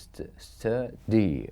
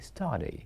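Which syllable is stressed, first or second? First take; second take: second; first. First: The stress is on the second syllable. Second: The stress is on the first syllable. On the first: The speaker calls it wrong. "We don't say" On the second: The speaker calls it right. "We say study, which is stressed. One is the first syllable"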